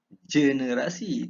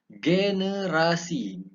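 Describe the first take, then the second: First: It begins with a j sound. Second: It begins with a hard g sound. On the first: The speaker calls it wrong. "Itu selalu kita dengar mana-mana orang sebut" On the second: The speaker calls it right. "Ini sini ge"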